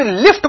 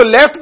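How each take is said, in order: First: "लिफ्ट" with a clear short i, the accepted form; correct vowel demo. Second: "लेफ्ट" with an e, the majhul form, pitched up; wrong vowel demo. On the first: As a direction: say "लिफ्ट" plainly with an i sound. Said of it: "ये मारूफ है।". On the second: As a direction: say "लेफ्ट" with an e, lifted as the odd one. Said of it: "ये मजहूल हो गया।". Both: Shown as a demonstration.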